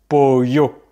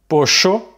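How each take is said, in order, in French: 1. Le double L se prononce 'y'. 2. Le double L se prononce 'sh'. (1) "en Espagne, le double L va plutôt se prononcer y" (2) "caractéristique de l'espagnol d'Argentine"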